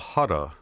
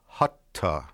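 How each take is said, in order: First: The T is soft and quick. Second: The T is hard and strong. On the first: "that's what I call a soft T or a quick T" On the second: "as opposed to a hard T, which would be hutta"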